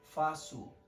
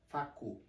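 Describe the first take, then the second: First: The middle consonant sounds like an s. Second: The middle consonant sounds like a k. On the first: The speaker calls it right. "With this little sign here under the letter C" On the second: The speaker calls it wrong. "If I take this little sign off, it will be eu faco. It's not faco"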